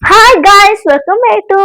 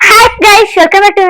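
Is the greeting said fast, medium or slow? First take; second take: slow; fast. First: It is said very slowly. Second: It is said quickly, in a rush. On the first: "ಅಷ್ಟು ನಿಧಾನ ಬೇಡ" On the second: "ನಿಧಾನಕ್ಕೆ ನಿಧಾನಕ್ಕೆ ನೀಟಾಗಿ ಹೇಳು, ಯಾಕೆ ಅರ್ಜೆಂಟಾ?"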